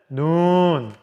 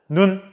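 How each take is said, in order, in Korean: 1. 모음을 길게 발음해요. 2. 모음을 짧게 발음해요. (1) "눈 하고 길게 발음한답니다" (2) "눈 하고 짧게 발음한다고 하네요"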